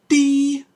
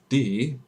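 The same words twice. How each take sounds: First: It is said in a high-pitched voice. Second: It is said in a lower voice.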